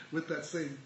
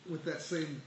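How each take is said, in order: Both takes have the same delivery.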